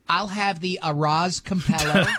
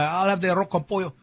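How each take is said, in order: First: Arroz con pollo has an English accent. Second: Arroz con pollo has a Spanish accent.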